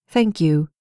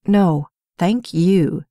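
First: Said in the usual way. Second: Slow, dry sarcastic thanks; drawn out and mocking, not grateful. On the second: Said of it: "he said sarcastically".

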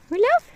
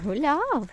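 First: "Гуляв?" asked high and louder with a sharp rise; "Гуляв?" bright high rise; rising question. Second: Said in the usual way. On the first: Real, not acted. Grandma asks toddler.

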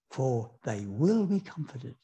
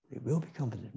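First: Slow, with weight on will; slow emphatic quote. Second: Softer repeat, will gently stressed; soft echo. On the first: Preacher to congregation, stressing will in the beatitude. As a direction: lean on will, drawn out and falling. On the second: Preacher echoing the promise to the congregation, softly. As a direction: let will be comforted fall away, softly. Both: Acted.

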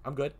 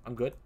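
The two takes are said the same way.

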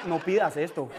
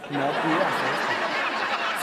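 First: Said in the usual way. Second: "No pidas esto" said very slowly and much lower; slow deep warning. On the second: Shown as a demonstration. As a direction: drag out a mock ominous warning. (advertencia lenta y grave de broma)

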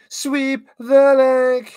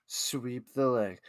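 First: High, slow, loud command; mock coach yell. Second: Slow, low and soft; low menacing command. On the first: Commentator playing a coach to Johnny, mock yell. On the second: Acted. Commentator playing a coach to Johnny, low quiet command. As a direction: drop it down to a quiet, slow order.

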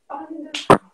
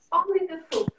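First: Only the foot called out much louder; teacher calling across the studio, stressing only; insistent repeat. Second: Said in the usual way. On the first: Shown as a demonstration. To the dancers, repeating the correction loudly.

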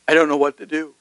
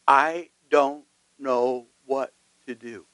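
First: Said in the usual way. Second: Slow, softer desperate plea; desperate cry. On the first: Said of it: "she says". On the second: Retold or imitated. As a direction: let "I don't know what to do" sink slowly, hopeless. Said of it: "have cried out to God and said".

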